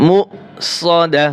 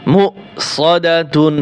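First: "মু সদা" with দা closing on a breathed h; pausal ending. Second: "মু সদা তুন" with final তুন sounded; full ending. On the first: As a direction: drop the tun and stop on "dah". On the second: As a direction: voice the ending তুন after a short মু. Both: Shown as a demonstration. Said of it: "অক্ফ করলে কি হবে".

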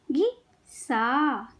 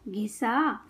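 First: घिसा very slowly, pause after घि; syllable by syllable. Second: Said in the usual way. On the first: Shown as a demonstration. Teacher teaching kids to read, syllables apart. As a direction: break घिसा into घि - सा. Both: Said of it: "शब्द पढ़ना सिखाऊंगी".

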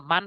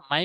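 First: "মান" ending in a clear n; incorrect reading. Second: "মাই" with the n merged into a y glide; correct merged reading. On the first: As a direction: say "মান" with the n fully sounded. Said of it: "মান পড়া যাবে না". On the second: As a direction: say "মাই", gliding to y with no clear n. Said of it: "মাই পড়তে হবে". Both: Shown as a demonstration.

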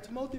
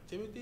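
First: "Timothy" as tuh-MOH-thee; softly said tuh-MOH-thee for "Timothy"; long-O pronunciation. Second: "Timothy" as TIM-uh-thee; softly said TIM-uh-thee for "Timothy"; usual pronunciation. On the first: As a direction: stretch the middle of "Timothy" to a stressed OH. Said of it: "I like Timothy better". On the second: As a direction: stress the first syllable of "Timothy", short middle vowel. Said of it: "but Timothy it is". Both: Shown as a demonstration.

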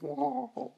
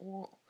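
First: Imitating a voice crack, high and loud; mock voice crack. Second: Real voice crack upward. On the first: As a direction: exaggerate your own cracked squeak, much higher and louder. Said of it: "that was a voice crack. I was like". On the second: Real, not acted. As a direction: voice accidentally cracks high on the word. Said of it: "that was a voice crack".

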